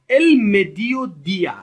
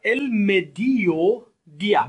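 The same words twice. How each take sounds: First: "El mediodía" slow and loud, stress on el; loud slow model. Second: "el mediodía" drawn out very slowly, syllable by syllable; slow model pronunciation. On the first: Teacher repeats the word for students: loud, slow "El mediodía". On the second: Teacher models a word for repetition: slow "el mediodía". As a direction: stretch "el mediodía" for students to repeat. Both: Shown as a demonstration. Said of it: "تکرار بفرمایید به دنبال بنده".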